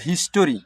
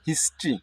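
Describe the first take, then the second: First: A full vowel is heard after the t. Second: No vowel is heard after the t. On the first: The speaker calls it wrong. "তোমরা এটাকে অনেকেই বলো হিস্টোরি, তা না" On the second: The speaker calls it right. "এটা উচ্চারণ হবে হিস্ট্রি"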